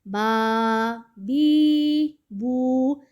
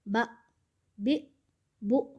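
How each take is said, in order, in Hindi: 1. स्वरों को लंबा खींचा जाता है। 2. स्वरों को झटके के साथ काटा जाता है। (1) "कुछ इस्लामी बहन भाई इस तरह पढ़ते हैं ... दराज नहीं करना" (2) "झटका नहीं देना ... कुछ इस्लामी बहन भाई पढ़ते हैं"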